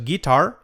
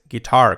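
First: "guitar" stressed on the first syllable, Spanish style; wrong guitar. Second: "guitar" stressed on TAR, ending in a clear R, louder; correct guitar. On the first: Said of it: "No es guitar". ("guitar" con acento en GUI) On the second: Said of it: "con acento en la A". ("guitar" con acento en la A, acabada en R) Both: Shown as a demonstration.

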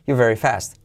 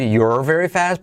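First: "you're very fast" quick, you're squeezed to ju. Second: Said in the usual way. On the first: Shown as a demonstration. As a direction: rush "you're very fast" into one breath. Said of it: "dicho rápido es". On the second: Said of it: "Puedes decir".

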